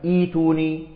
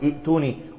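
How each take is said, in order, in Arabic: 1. يحل حرف المد محل الهمزة الثانية. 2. تأتي الهمزة بعد الحركة الأولى. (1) "ولكن نقول ائتوني" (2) "إياكم أن تقولوا ائتوني"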